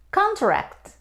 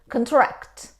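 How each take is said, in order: First: The stress is on the first syllable. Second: The stress is on the second syllable. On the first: It is a noun meaning a formal agreement. "It's a noun" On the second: It is a verb meaning to decrease in size. "when we stress on the second syllable, we say contract"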